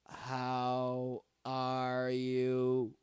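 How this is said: It is said flat and emotionless, like a robot. The speaker calls it wrong. "I'm a robot. I'm emotionless. ... Don't do that. ... Who speaks like that, man?"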